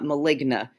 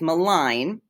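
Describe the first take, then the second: First: The word ends with an added final vowel. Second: The word ends without any added vowel. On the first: The speaker calls it wrong. "It is not maligna" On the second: The speaker calls it right. "It is malign"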